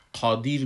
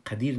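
First: قادر with a dark, rounded "qo" opening; thick back q in قادر, as "qodir"; weighty first syllable on قادر; full, heavy qaf. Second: قدیر with a thin, short "qa" opening; light first syllable in قدیر, as "qädir"; the mistake: thin vowel after q in قدیر; wrong light qaf. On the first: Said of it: "پر میخوانمش". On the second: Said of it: "قدیر نمیخوانم". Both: Shown as a demonstration.

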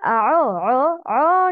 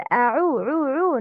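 First: أعو with عو opened to "o"; incomplete damma. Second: أعو with a full "oo" on عو; complete damma. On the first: Teacher showing the mistake, open "o" in عو. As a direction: slack "aw-oh" vowel on عو. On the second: Teacher correcting learners, full "u" vowel in عو. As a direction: round عو fully to a "u". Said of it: "Complete the ضمة". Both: Shown as a demonstration.

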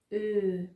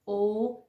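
First: او held as a front rounded "ö"; ö for contrast. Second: او said loud as a back "oh"; o for contrast. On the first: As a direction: demonstrate او as German ö. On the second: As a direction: demonstrate او as a simple o. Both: Shown as a demonstration.

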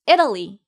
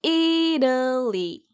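First: Louder, compact 이탈리 as "ID-uh-lee"; brisk final model of 이탈리, front-stressed; pronunciation drill. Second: Very slow 이탈리 as "EEE-duh-lee"; slow repeat-after-me 이탈리, each syllable separate; pronunciation drill. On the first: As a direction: punch the start of 이탈리 at natural speed. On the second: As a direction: drag out the stressed first vowel of 이탈리. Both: Shown as a demonstration. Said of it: "그럼 함께 말해볼까요".

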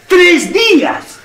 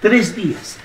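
First: "tres días" stretched out slowly and raised high; drawn-out emphasis. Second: Said in the usual way. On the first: Acted. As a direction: drag out "tres días" in exasperation.

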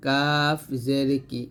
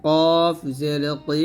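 First: "কাফ" with a thin, light front k, said slowly; light kaf in "কাফ", not thickened. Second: "কফ" with a thick, full back-of-mouth k; heavy qaf in "কফ", slowly drawn. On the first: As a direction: keep "কাফ জের কি" light and slow. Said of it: "কাফটা পাতলা হবে". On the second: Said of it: "কফটা মোটা হবে". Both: Shown as a demonstration.

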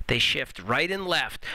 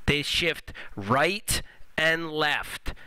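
First: Said in the usual way. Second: Drawn-out, every word separate; very slow and clear. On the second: Shown as a demonstration. Teacher drilling the rule for students, very slow and clear. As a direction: lay each word down slowly. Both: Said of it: "Let me say that again really clearly".

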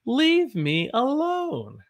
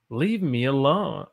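First: High, slow, drawn-out whine; whiny high plea. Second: Said in the usual way. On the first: Shown as a demonstration. Teacher acting out the phrase for students, high whine. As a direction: stretch it out like a sulky kid.

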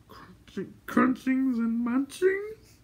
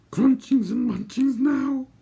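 First: Very high, slow creature whimper, rising; questioning whimper. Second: High, slow creature voice, pressing; Gurgi's suggestion. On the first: Gurgi asking for food, whimpering questioningly. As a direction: start faint, then whimper a hopeful question. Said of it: "Gurgi whimpered questioningly". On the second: Gurgi pressing for food on the ridge, suggesting. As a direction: urge it in a high creature squeal. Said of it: "Gurgi suggested". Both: A narrator's reading.

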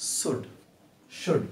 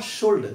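First: Should said shud with a silent L, slow and soft; correct pronunciation. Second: Should said with a sounded L, sholt; wrong pronunciation. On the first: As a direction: drop the L in should. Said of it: "this is should". (should में एल silent) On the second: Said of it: "this is not should". (should में एल बोलना) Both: Shown as a demonstration.

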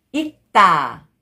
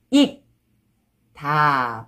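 First: 익다 joined as 익따, tense tt; read together. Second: 익, a pause, then a long lower 다; syllable by syllable. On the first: Teacher shows how it reads together, linked pronunciation. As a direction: run 익다 into one word with a hard 따. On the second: Teacher breaking a word down for learners, syllable by syllable. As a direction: say 익 and 다 as separate syllables. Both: Shown as a demonstration. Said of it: "when you read it together".

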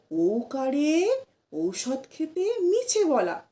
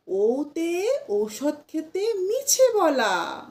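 First: ওকারে said "oukare", slowly; wrong pronunciation. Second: ওতে said "oute", slowly; slow rhyme with the right ওতে; correct pronunciation. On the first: Teacher imitates the usual wrong rhyme, slow. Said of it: "আমরা তো বলেই থাকি". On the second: Teacher gives learners the corrected rhyme, slow. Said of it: "না". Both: Shown as a demonstration.

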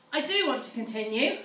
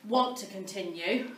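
First: "do" lifted and stressed. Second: Said in the usual way. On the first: Real, not acted. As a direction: lean on "do" to insist.

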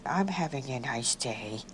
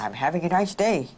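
First: Low, soft, drawn-out sad voice. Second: Mild put-on anger; an attempt at sounding angry, only lightly raised. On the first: Twin tries a sad voice for the examiner, sad. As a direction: say it sadly, pitch sunk and volume down. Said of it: "in a sad tone of voice". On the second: Twin tries an angry voice for the examiner, mildly angry. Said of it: "say it in an angry voice". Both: Shown as a demonstration.

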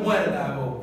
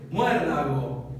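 First: Said in the usual way. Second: Muérdago said slowly as mué-rda-go, each syllable apart; muérdago separado en sílabas; split into syllables. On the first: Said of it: "Fíjense, por ejemplo". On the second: Shown as a demonstration. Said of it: "Si yo lo separo es muérdago".

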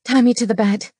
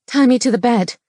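First: Said in the usual way. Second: "Tie me to the bed" higher and louder, insistent; "Tie me to the bed" repeated with raised, forceful voice. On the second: A narrator's reading. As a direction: press "Tie me to the bed" as a firm, raised-pitch demand. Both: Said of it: "she repeated".

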